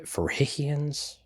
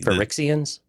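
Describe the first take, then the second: First: The x is said with a j sound. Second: The x is said with an x sound.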